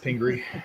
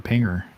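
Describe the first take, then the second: First: The name ends with a 'ree' sound. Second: The name ends with an 'er' sound. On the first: The speaker calls it right. "It's Pingree, former mayor of Detroit" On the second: The speaker calls it wrong. "I just like incorrectly speaking and calling it Mayor Pinger"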